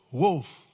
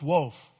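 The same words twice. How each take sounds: First: "Wolf" with a close, rounded O; preferred pronunciation. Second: "wolf" with an open AW vowel; rejected pronunciation. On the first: Preacher settling how to read the verse, "Wolf" with rounded O. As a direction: say "Wolf" with a tighter O vowel. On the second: Preacher showing the congregation the rejected reading, "wolf" as "wawlf". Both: Shown as a demonstration. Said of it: "Not wolf".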